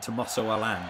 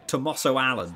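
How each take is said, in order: First: The surname does not sound like English Alan. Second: The surname sounds like the English name Alan. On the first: This is how the name should be said. The speaker calls it right. "Rather than" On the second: This is how the game's commentators say it. The speaker calls it wrong. "they also call him Alan"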